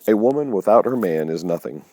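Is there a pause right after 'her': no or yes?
no. It runs on with no pause after 'her'.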